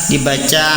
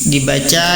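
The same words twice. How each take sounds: Both takes have the same delivery.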